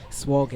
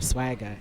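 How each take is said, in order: First: The first vowel sounds like the 'o' in 'swog'. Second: The first vowel sounds like the 'a' in 'swag'. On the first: This is how a friend mispronounced the name. The speaker calls it wrong. "He'd pronounce it as Swagger" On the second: This is the name's original pronunciation. The speaker calls it right. "instead of Swagger"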